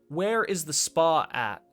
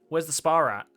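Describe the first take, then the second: First: American accent, with no r sound after spa. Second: Australian accent, with an r linking spa and at. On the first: "Would be the American way of saying it" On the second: "the Australian way, we would say, ... it sounds like spa rat"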